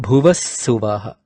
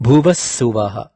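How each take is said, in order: The two takes are said the same way.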